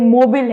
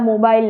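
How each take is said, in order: First: The second syllable has a short 'i' vowel. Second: The second syllable has a long 'ai' vowel. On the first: The speaker calls it right. "ये मोबिल है guys" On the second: The speaker calls it wrong. "मोबाइल नहीं है"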